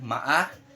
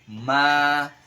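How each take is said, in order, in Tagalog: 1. Putol-putol ang patinig, hindi tuloy-tuloy. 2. Tuloy-tuloy na binibigkas ang patinig sa isang haba. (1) "Hindi po natin babasahin ng maa" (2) "Ang basa po dyan ay tuloy-tuloy lang"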